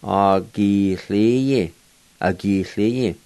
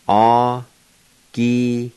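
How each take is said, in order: First: "Agiliye" blended into one word, falling at the end; connected teaching example of "Agiliye", lightly falling; joined-up pronunciation. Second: Very slow "Agiliye" with long held syllables; drawn-out teaching breakdown of "Agiliye"; syllable-by-syllable pronunciation. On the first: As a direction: link the syllables of "Agiliye" without breaks. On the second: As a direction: stretch "Agiliye" out, pausing between syllables. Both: Shown as a demonstration. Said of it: "pronounce these words".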